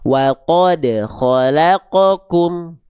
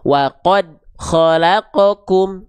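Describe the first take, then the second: First: The d sound has a bounce. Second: The d sound has no bounce. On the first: The speaker calls it right. "Huruf dal harus dipantulkan" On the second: The speaker calls it wrong. "dilafalkan dengan tidak memantulkan suara"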